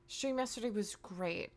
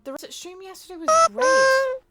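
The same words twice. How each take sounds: First: Said in the usual way. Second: High-pitched squeal. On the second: Real, not acted. Streamer praising yesterday's stream to chat, high squeal. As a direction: push it up into a loud, high squeal. Exaggerated praise, then restated plainly.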